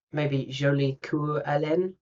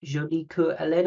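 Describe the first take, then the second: First: Jolie Coeur Hélène tried slowly, ʒoʊlik u ɛlɛ̃n; feeling out Jolie Coeur Hélène syllable by syllable; a careful first go at Jolie Coeur Hélène; trying the French name. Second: Jolie Coeur Hélène as ʒoli ku ɛlɛ̃n, French vowels; a second, surer stab at Jolie Coeur Hélène in French; French pronunciation. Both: Shown as a demonstration. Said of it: "am I saying that good?".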